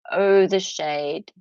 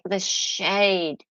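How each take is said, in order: First: "shade" stretched slowly with relish; drawn-out emphasis. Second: Said in the usual way. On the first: Shown as a demonstration. Savouring the lawyers' passive aggression, slow relish. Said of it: "said twice, drawn out". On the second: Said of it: "said twice, second drawn out".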